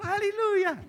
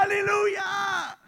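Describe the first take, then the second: First: Said in the usual way. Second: High, slow, loud aleluya; shouted hallelujah. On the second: Retold or imitated. Pastor telling Pato to shout, long loud aleluya. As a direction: draw out a big shouted aleluya. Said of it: "Levanta tu mano y grita".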